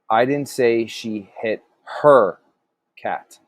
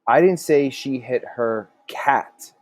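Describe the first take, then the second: First: The word "her" carries the stress. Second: The word "cat" carries the stress. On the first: It may have been someone else's cat. "So maybe it was somebody maybe it was somebody else's cat" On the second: It may have been a different animal. "Maybe she hit her dog"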